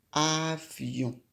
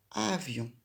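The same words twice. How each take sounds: First: "avion" stretched out sound by sound; drawn-out word. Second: Said in the usual way. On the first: Shown as a demonstration. Teacher introduces the word to write, drawn out "avion". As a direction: say "avion" slowly, lengthening each sound.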